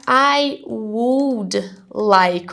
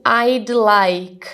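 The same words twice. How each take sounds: First: "I would like" very slowly, each word separate; full uncontracted form. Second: "I'd like" with "I'd" as one syllable; contracted form. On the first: Teacher spelling out the contraction, "I would like" slow and in full. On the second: Teacher showing students the short form, "I'd like" said contracted. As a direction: run I and D together in "I'd like". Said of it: "tem um I e o apóstrofe D". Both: Shown as a demonstration.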